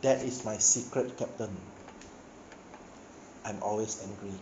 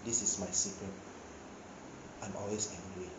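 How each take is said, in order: First: A calm, quiet Banner line; preacher retells Banner calmly answering Captain America, calm and quiet. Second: Low quiet Hulk line. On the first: A narrator's reading. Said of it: "calmly look at Captain America". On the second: Retold or imitated. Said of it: "Then he told Captain America".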